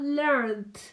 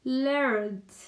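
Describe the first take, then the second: No difference in how they are said.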